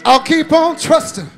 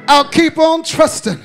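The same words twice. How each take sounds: The two takes are said the same way.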